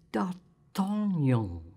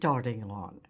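First: The name is said as 'D'Artagnan'. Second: The name sounds like the words 'darting on'. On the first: The speaker calls it right. "you pronounce it D'Artagnan" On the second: The speaker calls it wrong. "you don't pronounce it darting on"

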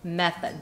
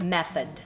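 First: It is said in English style, 'method'. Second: The same.

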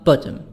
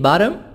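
First: The t is a clear t sound. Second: The t sounds like a soft d.

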